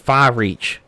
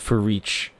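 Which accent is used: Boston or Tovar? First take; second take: Boston; Tovar. First: It is said in a put-on Boston accent. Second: It is said in a put-on Tovar accent. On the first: "you could say it like a Bostonian" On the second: "In the tongue of Tovars"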